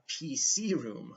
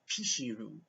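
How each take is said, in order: First: The C is said with an 's' sound. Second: The C is said with a 'sh' sound. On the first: The speaker calls it right. "he meant a P C room" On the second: The speaker calls it wrong. "They say she instead of C"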